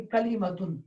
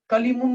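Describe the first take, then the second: First: کلمتن with the nasal un ending; correct tanween. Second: کلیمن said as kalimun, the wrong way; wrong reading. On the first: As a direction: end کلمتن cleanly on -tun. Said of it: "ہم کہیں گے یہاں پر". (کلمتن کو تنوین کے ساتھ صحیح ادا کریں) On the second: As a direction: show کلیمن as the mistake to avoid. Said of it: "نہیں بول سکتے ہیں". (غلط ادائیگی کلیمن کی مثال) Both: Shown as a demonstration.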